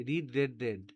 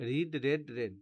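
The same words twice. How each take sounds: The two takes are said the same way.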